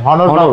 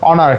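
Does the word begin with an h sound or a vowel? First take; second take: h sound; vowel. First: The word begins with an h sound. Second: The word begins with a vowel sound. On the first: The speaker calls it wrong. "হনর তো হবে না। আসলে কি করবো, এটা উচ্চারণ হয়ে যায় হনর" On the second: The speaker calls it right. "অনার হবে, অনার অনার ঠিক আছে"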